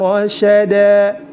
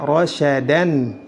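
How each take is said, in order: First: The word ends in a long a. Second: The word ends in an. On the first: The speaker calls it right. "tetap dibaca fathah dan dipanjangkan dua harokat" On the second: The speaker calls it wrong. "Tidak boleh dibaca"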